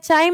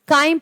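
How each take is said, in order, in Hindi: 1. शब्द की शुरुआत ch की आवाज़ से होती है। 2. शब्द की शुरुआत k की आवाज़ से होती है। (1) "इसे आप चाइल्ड या चाइम ना पढ़े" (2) "काइम पढ़ेंगे"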